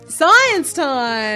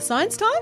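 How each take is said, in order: First: It is said with high energy. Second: It is said with low energy.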